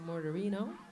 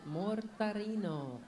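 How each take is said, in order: First: The name is said with an American pronunciation. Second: The name is said with an Italian pronunciation. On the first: This is how the owner of the name says it. "She probably says Vanessa Mortarino" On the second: This is how it is said in the host country. "since we are in Italy, we will pronounce it Mortarino"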